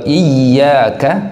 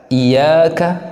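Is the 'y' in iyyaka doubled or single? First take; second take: doubled; single. First: The y sound is held and doubled. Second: The y sound is short and single. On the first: The speaker calls it right. "Tasydid pada daripada huruf ya ini harus betul-betul jelas" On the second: The speaker calls it wrong. "Jangan kemudian ditakhfif"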